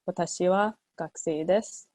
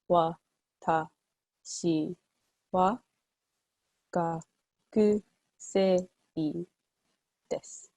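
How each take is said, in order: First: It is said smoothly at normal speed. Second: It is said slowly, broken into syllables.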